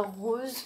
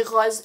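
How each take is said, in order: First: "rose" with a closed, long standard o; non-southern "rose", rounded like "rôse"; standard French pronunciation. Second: "rose" with an open southern French o; southern-accented "rose", short open o; southern French pronunciation. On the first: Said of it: "Je dis rose et pas rose". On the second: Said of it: "parce que je viens du sud". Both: Shown as a demonstration.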